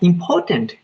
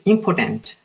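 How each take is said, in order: First: It sounds like the word important. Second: It sounds like the word impotent. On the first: Something is valuable. The speaker calls it right. "when we say it correct" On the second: Something lacks power. The speaker calls it wrong. "It means we have not, we are lack of power"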